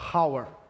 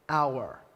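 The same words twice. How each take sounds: First: The word starts with a breathy h sound. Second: The word starts directly with a vowel sound. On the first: The speaker calls it wrong. "Eu não falo hour" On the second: The speaker calls it right. "eu falo hour"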